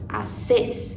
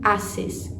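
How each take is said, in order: First: The stress falls on the last syllable. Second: The stress falls on the first syllable. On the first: The speaker calls it right. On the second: The speaker calls it wrong.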